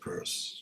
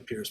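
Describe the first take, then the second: First: The name sounds like the word purse. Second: The name sounds like the word pierce. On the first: This is how the man himself said it. The speaker calls it right. "but he pronounced it Peirce" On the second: This is the common way people say it. The speaker calls it wrong. "People often say Pierce"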